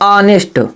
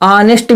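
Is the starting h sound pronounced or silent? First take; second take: silent; silent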